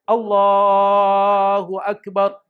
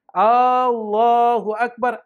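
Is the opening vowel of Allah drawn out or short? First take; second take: short; drawn out. First: The opening vowel of Allah is short. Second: The opening vowel of Allah is drawn out. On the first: It states that God is the greatest. The speaker calls it right. "Makanya langsung Allahu Akbar" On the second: It asks whether God is the greatest. The speaker calls it wrong. "ada namanya huruf istifham, itu namanya huruf tanya"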